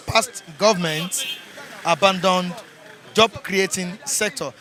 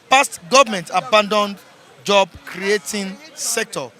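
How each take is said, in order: First: Said in the usual way. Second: Bright headline read, a touch louder; announcer headline read. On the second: Acted. Reviewer announces front-page headline to viewers, punchy. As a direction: announce it over the jingle.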